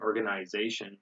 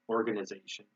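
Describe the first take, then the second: First: It is said with a British accent. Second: It is said with an American accent. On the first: "They say" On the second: "We say"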